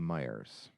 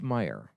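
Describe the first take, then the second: First: The name ends with an added s sound. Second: The name ends without an s sound. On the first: This is the local plural habit. The speaker calls it wrong. "because of our Michigan accent, we will pluralize it" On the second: This is the store's actual name. The speaker calls it right. "It's called Meijer"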